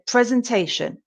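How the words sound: The first syllable sounds like prez. "In Britain, we say presentation"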